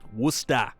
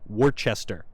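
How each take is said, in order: First: It is said short, with two syllables. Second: It is said as spelled, with three syllables. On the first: The speaker calls it right. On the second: The speaker calls it wrong.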